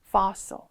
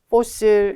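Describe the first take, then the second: First: It is said with a native-like English pronunciation. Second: It is said with a foreign learner's pronunciation. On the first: The speaker calls it right. "fossil 해봐요" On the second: The speaker calls it wrong. "fossil 이렇게 읽었어요. 그럼 뭐, 못 알아들어요 나중에"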